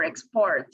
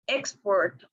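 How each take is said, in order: First: "export" stressed on PORT; stress on second syllable. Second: "export" stressed on EX; stress on first syllable. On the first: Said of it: "or in the second". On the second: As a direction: say "export" as EX-port. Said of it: "whether the stress is on the first". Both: Shown as a demonstration.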